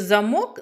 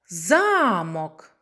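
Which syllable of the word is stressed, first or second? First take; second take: second; first. First: The stress is on the second syllable. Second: The stress is on the first syllable. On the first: "Який склад наголошений? Так, другий" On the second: "Наголос на перший склад"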